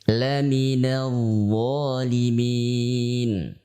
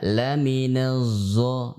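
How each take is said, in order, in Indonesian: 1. Konsonannya adalah bunyi dh bersuara yang berat. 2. Konsonannya terdengar seperti bunyi z. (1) "Semisal ketika kita mengucapkan" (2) "tidak mirip zai"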